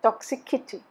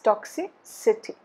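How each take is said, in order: First: The sound before '-ity' is a hard 'k'. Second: The sound before '-ity' is a soft 's'. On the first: The speaker calls it wrong. "It's not toxicity" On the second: The speaker calls it right. "It's toxicity"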